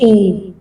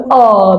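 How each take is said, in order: First: The vowel glides like 'ay'. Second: The vowel is an open 'ah' sound. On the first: This is the English letter name. The speaker calls it wrong. "مش ايه" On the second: This is the French letter name. The speaker calls it right. "انا بفتح شويه في الاه فبقول اه"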